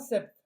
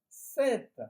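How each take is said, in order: First: The final T sound is left silent. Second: The final T sound is clearly pronounced. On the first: The speaker calls it wrong. "Pas sept" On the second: The speaker calls it right. "Et vous prononcez le T"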